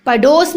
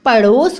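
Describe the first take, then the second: First: "पड़ोस" with a hard d; wrong pronunciation. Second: "पड़ोस" with a flapped ड़; correct flapped sound. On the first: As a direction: say "पड़ोस" as pa-dos. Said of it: "नहीं होता". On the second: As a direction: say "पड़ोस" as pa-ros, tongue flicked. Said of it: "पड़ोस होता है". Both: Shown as a demonstration.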